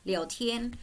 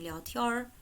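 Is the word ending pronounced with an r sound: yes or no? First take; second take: no; yes. First: It ends without any r sound. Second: It ends with a northern r sound.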